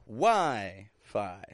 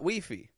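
First: The stress is on the first syllable. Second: The stress is on the second syllable. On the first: The speaker calls it right. "Strong in the beginning, weak on the ending" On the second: The speaker calls it wrong. "it is not Wi-Fi"

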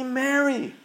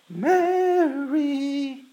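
First: The name is said in a plain, ordinary voice. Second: The name is said with a joyful, rejoicing voice.

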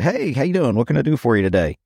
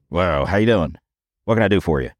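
First: It is said in a friendly, cheerful tone. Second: It is said in a grumpy, irritated tone.

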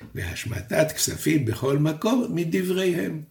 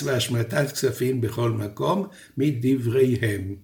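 First: The phrase runs on without a pause. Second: A pause comes before the final word. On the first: Only the debt release is rabbinic; the sabbatical year applies fully. "לפי הדרך שבה פיסקתי את המשפט" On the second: Both the sabbatical year and debt release are rabbinic. "עכשיו אני מפסק את המשפט בדרך אחרת"

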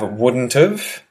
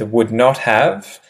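First: Contracted, with have reduced to a weak sound. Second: All three words are said fully and separately. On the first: "not written but spoken" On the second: "you'll start with would not have"

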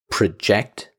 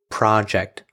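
First: The stress is on the second syllable. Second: The stress is on the first syllable. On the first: It is the verb meaning to cast an image. "the verb we're talking about to project" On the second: It is the noun meaning a piece of work. "the other one is project"

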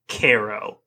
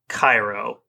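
First: Cairo is said unlike the Egyptian city's name. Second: Cairo is said like the Egyptian city's name. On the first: This names the town in Illinois. The speaker calls it right. "Illinois is in fact pronounced Cairo" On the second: This names the city in Egypt. The speaker calls it wrong. "not Cairo, like the city in Egypt"

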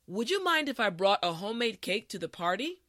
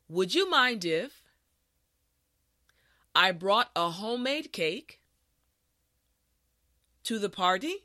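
First: The sentence is said at a quicker, natural pace. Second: The sentence is said at a slow, careful pace. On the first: "the last time at a regular pace" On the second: "this time repeat after me"

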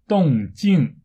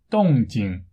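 First: The second syllable carries a falling fourth tone. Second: The second syllable is light and toneless. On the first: This is the Taiwan pronunciation. "不过在台湾，人们的发音就是动静" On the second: This is the mainland pronunciation. "声调不是四声，而是轻声，也就是没有声调。所以在中国大陆正确的发音应该是动静"

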